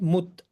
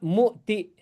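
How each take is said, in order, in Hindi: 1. शब्द सादे व्यंजन t पर खत्म होता है। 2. शब्द छोटे i स्वर पर खत्म होता है। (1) "It becomes mut" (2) "not muti"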